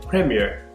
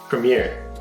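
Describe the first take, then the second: First: It is said in an English accent. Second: It is said in a nasal American accent. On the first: "an English person might say" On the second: "here Scarlett Johansson says"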